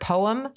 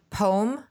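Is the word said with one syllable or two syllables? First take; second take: two syllables; one syllable. First: The word is said as two syllables. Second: The word is said as one syllable. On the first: The speaker calls it right. "I make sure I say it with two syllables" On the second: The speaker calls it wrong. "Years ago, I pronounced it poem, which it's arguable that that's incorrect"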